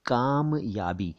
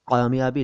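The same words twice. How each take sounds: First: कामयाबी slowly as "kaam-yaabi", plain k; correct plain k. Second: कामयाबी wrongly said as "qaamyaabi"; mistaken dotted q. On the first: Teacher correcting the dot mistake, कामयाबी slow with plain k. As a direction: split कामयाबी in two, starting on a simple k. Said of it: "लेकिन वो नुक्ता नहीं है". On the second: Teacher quoting a common mistake, कामयाबी with q for k. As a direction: start कामयाबी with a throaty q. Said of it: "क के नीचे नुक्ता लगा देते हैं". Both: Shown as a demonstration.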